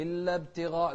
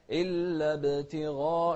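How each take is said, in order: First: Quick ابتغاء, ب running into ت without bounce; mispronunciation demo. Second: Slow, loud chanted ابتغاء with a bouncing ب; qalqala on baa. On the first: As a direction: skip the echo on the ب of ابتغاء. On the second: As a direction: release the ب of ابتغاء with a short echo before ت. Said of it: "شوف القلقلة". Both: Shown as a demonstration.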